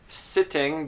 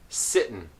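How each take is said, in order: First: The word ends with a full 'ng' sound. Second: The word ends with a plain 'n' sound. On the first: "sitting becomes sitten" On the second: "sitting becomes sitten"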